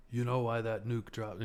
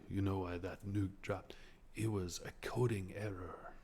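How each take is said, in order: First: Said in the usual way. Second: Lightly voiced serene monk, a bit softer; a hint of a calm monk explaining; Buddhist monk. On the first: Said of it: "Buddhist monk". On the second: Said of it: "it's all very, um, Buddhist monk".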